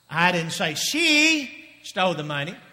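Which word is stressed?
she. The word she carries the main stress. Someone else took the money. "if she didn't do it, who did it?"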